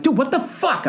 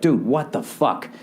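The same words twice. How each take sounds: First: High-pitched exasperated yell; re-enacted yell. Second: Said in the usual way. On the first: Frustrated man to his phone app, yelling high. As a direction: cry out in disbelief, voice shooting way up. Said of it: "I would literally yell that loud". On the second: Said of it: "parents looking at me like".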